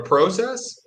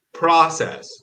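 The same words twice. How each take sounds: First: "process" with a long o, PROH-sess; Canadian "process". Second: "process" with a short open o, PRAH-sess; American "process". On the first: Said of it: "They say one and I say the other". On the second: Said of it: "obsessed with how I say". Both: Shown as a demonstration.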